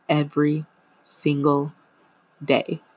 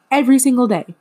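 First: Said in the usual way. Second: Every single day said much higher and louder, hammering Every; emphatic repeat. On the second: Shown as a demonstration. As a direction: punch it out as an exasperated repeat.

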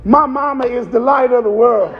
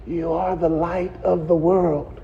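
First: Put-on proud little boy. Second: Low, hushed prompting from the pew; mother's hushed prompt. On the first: Little boy reciting his Easter speech, proud and sure. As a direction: blurt it out proudly like a child. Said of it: "Little boy said". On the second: Retold or imitated. Mama prompting her son from the front row, hushed. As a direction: lean in and feed him the line softly. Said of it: "She was trying to whisper to him".

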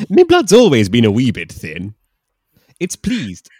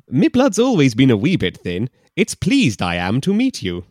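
First: Loud mock Scottish brogue; a hammy Scot; Scottish man. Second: Loud mock brogue with Yoda-like order; hammy Scot, odd word order; Scottish man. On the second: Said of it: "Is it Yoda?".

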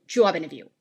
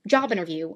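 First: "job interview" in a British-style accent; rounded British vowel in "job", r dropped in "interview"; other accent. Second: Said in the usual way. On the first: Shown as a demonstration. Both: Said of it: "An accent is the difference between".

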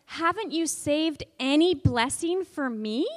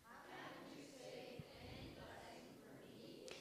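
First: Raised, aggrieved plea; teacher demonstrating Esau's plea for children; pleading question. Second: Distant group echo. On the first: Shown as a demonstration. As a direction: ask it with hurt. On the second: Real, not acted. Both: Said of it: "Can you say that?".

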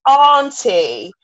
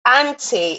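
First: Auntie drawn out slowly with a long "ahn" vowel. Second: Auntie said with a short front "a", as in "ant". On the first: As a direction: correct it pointedly to a long, louder "AHN-tee" in auntie. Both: Retold or imitated. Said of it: "focus on was my accent".

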